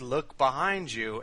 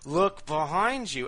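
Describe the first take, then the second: First: It is said in a calm, neutral tone. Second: It is said in a more irritated tone.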